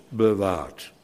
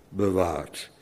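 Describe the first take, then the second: The two takes are said the same way.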